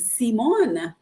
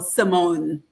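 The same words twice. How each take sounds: First: The name is said the Dominican way. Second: The name is said the American way. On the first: This is how people at home say the name. "my whole life growing up in Dominica, my name was Simone" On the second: This is how people in the States say the name. "I got to the States, what's my name now?"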